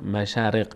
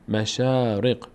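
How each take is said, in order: First: The vowel after sh is short. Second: The vowel after sh is long. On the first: The speaker calls it wrong. "نمیگه" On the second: The speaker calls it right. "شین فتحه دار تبدیل به آ میشه"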